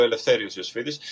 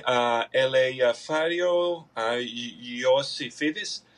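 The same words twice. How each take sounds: First: Said in the usual way. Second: Ελευθέριο and Ιωσήφιδης dragged out very slowly, syllable by syllable; American mangling of a Greek name. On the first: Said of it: "Οπότε λέω". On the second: Retold or imitated. Clerk in America struggling to read out his Greek name, very slowly. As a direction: stumble through Ιωσήφιδης like a clerk who cannot read it. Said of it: "Και μου λένε".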